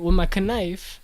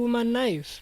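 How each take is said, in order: First: The K at the start of knife is pronounced. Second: The K at the start of knife is silent. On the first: The threat loses its potency. The speaker calls it wrong. "if you say it with my knife, it's just" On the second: The threat sounds believable. The speaker calls it right. "we don't say the K"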